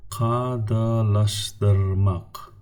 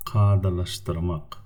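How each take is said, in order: First: Kadalaştırmak drawn out very slowly, syllable by syllable; very slow teacher model; slow model word. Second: Said in the usual way. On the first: Shown as a demonstration. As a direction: stretch Kadalaştırmak for learners. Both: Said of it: "examples for the words with the five syllables".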